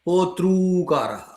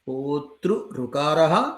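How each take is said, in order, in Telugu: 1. రెండు ఋ-స్వరాలు కలిసి ఒకే దీర్ఘ స్వరంగా మారతాయి. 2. రెండు ఋ-స్వరాలు కలవకుండా వేరుగా ఉంటాయి. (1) "सवर्णदीर्घपक्षे होतृकारः" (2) "प्रकृतिभावपक्षे होतृऋकारः"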